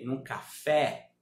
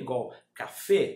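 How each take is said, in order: First: The E vowel is pronounced open. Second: The E vowel is pronounced closed. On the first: This is the Portuguese pronunciation. The speaker calls it wrong. "não café, isso é português" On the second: This is the Spanish pronunciation. The speaker calls it right. "fechando o E"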